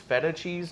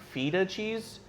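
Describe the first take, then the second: First: The first vowel does not sound like 'feet'. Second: The first vowel sounds like 'feet'. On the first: The speaker calls it right. "I need you to know that it's feta cheese" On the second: The speaker calls it wrong. "not feta cheese. It's not cheese of the feet"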